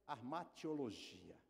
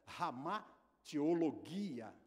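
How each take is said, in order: First: It is said with Portuguese pronunciation. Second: It is said with Greek pronunciation. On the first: "na transliteração na língua portuguesa" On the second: "Quando se pronuncia lá na língua grega"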